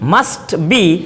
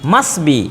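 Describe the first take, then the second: First: The t sound is clearly pronounced. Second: The t sound is left out. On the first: "টটা শোনা যায়" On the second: "এই টটাকে বাদ দিয়ে বলে"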